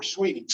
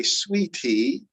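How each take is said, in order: First: Said in the usual way. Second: "sweetie" with a crisp, released T before the last vowel; unflapped T. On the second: Shown as a demonstration. Teacher showing what she doesn't say, "sweetie" with a hard T. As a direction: say "sweetie" with a true T, no flap. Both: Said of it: "I don't say sweetie".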